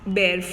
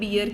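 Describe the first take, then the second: First: The vowel sounds like the one in 'bare'. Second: The vowel sounds like the one in 'beer'. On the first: It means to produce or carry. "Trees बेयर fruits" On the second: It names the animal. "Animal को हम बियर कहते हैं"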